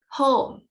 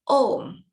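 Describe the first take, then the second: First: The h at the start is pronounced. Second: The h at the start is dropped.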